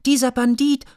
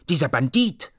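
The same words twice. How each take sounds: First: Much higher, louder squeal on dieser; a child's shrill shout; shrill repeated insult. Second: Put-on little girl calling names. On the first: Acted. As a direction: top the first call with a high piping shriek. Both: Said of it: "rief Mia Miene auch".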